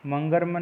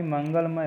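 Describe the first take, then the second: First: मंगलमय with r for l, "mangarmay"; teacher voicing मंगलमय as mangar-may; wrong pronunciation. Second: मंगलमय with a clear l; correct pronunciation. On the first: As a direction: swap the l of मंगलमय for an r. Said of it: "नहीं". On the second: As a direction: say mangal-may for मंगलमय. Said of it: "होता है". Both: Shown as a demonstration.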